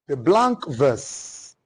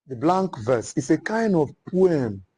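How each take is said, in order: First: Very slow, each word laid out for note-taking; slow dictation. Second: Said in the usual way. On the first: Shown as a demonstration. Teacher dictating a term to the class, very slow. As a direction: spell it out slowly so the class can write. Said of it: "which is blank verse".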